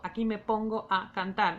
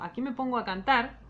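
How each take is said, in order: First: Pongo and a are said as separate syllables. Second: Pongo and a are joined into one syllable. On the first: The speaker calls it wrong. "yo no digo" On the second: The speaker calls it right. "digo aquí me pongo a cantar"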